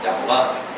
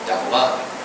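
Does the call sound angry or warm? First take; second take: warm; warm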